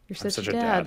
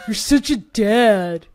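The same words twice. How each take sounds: First: It is said warmly and sincerely. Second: It is said in a teasing, mocking way. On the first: The remark is a genuine compliment. "I like said something totally earnest" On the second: The remark pokes fun at the listener. "Like if I had said it like that"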